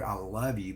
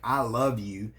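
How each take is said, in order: First: A loving "I love you"; sincere I love you. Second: Cold, grudging "I love you", a bit louder; resentful "I love you"; negative tone. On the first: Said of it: "Most of us wanna hear". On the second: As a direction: spit out "I love you" as if it hurts. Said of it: "with negative body language and a negative tone". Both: Shown as a demonstration.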